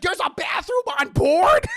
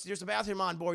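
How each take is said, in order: First: High, very loud disbelieving question; amazed shout. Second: Said in the usual way. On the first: Retold or imitated. Imitating Peter amazed by the plane, high loud shout. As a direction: shriek it like an astonished kid.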